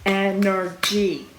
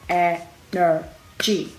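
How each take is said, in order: First: Slow, drawn-out Energy; Energy dwelt on slowly; stress on Energy. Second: Very slow, drawn-out Energy; Energy held long and slow; stress on Energy. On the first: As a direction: stretch out Energy for emphasis. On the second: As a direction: lean hard on Energy, stretched. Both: Shown as a demonstration. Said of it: "that is energy, people".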